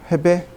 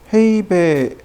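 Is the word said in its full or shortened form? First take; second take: shortened; full. First: The word is said quickly in shortened form. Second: The word is said in its full form. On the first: "그거를 빨리 읽는 거죠" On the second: "헤이베인가?"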